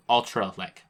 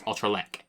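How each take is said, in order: First: "Ultralek" with weight on the first syllable; "Ultralek", stressing the opening Ul. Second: "Ultralek" with weight on the last syllable; "Ultralek", stressing the final lek. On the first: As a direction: say "Ultralek" as UL-tra-lek. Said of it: "you say Ultra". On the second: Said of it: "like, the stress". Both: Shown as a demonstration.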